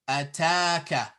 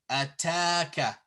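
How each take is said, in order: The two takes are said the same way.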